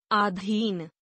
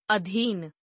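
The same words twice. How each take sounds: First: अधीन opening on long aa, "aadheen"; mispronounced. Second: Said in the usual way. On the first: Shown as a demonstration. Teacher showing a vowel error, mispronounced with long first aa. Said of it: "अशुद्ध". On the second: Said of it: "शुद्ध".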